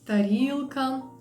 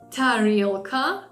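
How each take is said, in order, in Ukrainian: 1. Перший приголосний без придиху. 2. Перший приголосний з придихом. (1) "Ми скажемо" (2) "а він скаже"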